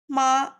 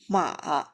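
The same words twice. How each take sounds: First: The pitch stays high and level. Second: The pitch falls low and then rises. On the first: "The first is high" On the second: "the third one is falling, then rising"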